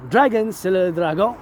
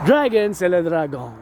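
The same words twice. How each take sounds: First: "Dragon" said the French way with a throaty French r and nasal final vowel; French pronunciation. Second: Said in the usual way. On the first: Shown as a demonstration. Showing the cousins how "Dragon" sounds in French. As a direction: say "Dragon" as a French word, not English. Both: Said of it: "You gotta learn some French".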